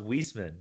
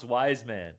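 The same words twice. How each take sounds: First: Weisman said WEESE-man; first vowel as "ee". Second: Wiseman said WIZE-man, like "wise"; first vowel as "eye". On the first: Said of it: "It's pronounced Weisman". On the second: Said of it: "it's not pronounced Wiseman". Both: Shown as a demonstration.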